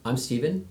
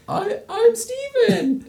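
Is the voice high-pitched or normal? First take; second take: normal; high-pitched. First: It is said in a normal pitch. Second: It is said in a high pitch.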